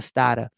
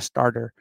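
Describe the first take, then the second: First: The r sounds are dropped, Boston style. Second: The r sounds are clearly pronounced. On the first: The speaker calls it right. "It's a starter" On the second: The speaker calls it wrong. "not a starter"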